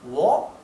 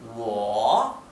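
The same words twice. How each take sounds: First: The pitch rises from start to end. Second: The pitch falls and then rises again. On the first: "Si fuera el tono ascendente sería wo" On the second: "Este tono significa que el tono cae y sube"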